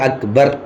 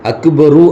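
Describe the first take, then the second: First: The word ends on a bare final consonant. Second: The word ends with an added final vowel. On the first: The speaker calls it right. "அந்த ரேக்கு சுக்கூன் வைக்கிறது சுன்னத்து" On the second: The speaker calls it wrong. "அக்பரு அப்படின்னு சொல்லாம"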